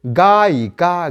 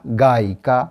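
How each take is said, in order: First: गायिका drawn out slowly, each syllable held; slow demo. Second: Said in the usual way. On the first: Shown as a demonstration. Teacher showing students the word गायिका, slow and spaced. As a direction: stretch out गायिका for the class. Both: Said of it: "फिर देखिए".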